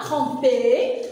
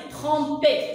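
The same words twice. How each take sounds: First: "tromper" wrongly ending in an open è; open final è, mispronounced. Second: "Tromper" with the last vowel closed, as é; closed final é. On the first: Teacher showing what not to say, "tromper" ending in open è. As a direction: say "tromper" with the last vowel opened to è. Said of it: "je dis pas tromper". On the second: Teacher modelling the closed vowel, "Tromper" ending in é. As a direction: end "Tromper" on a tight é sound, not è. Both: Shown as a demonstration.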